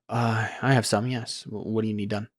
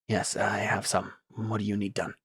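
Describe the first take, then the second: First: It sounds hesitant and halting. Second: It sounds tense and clipped.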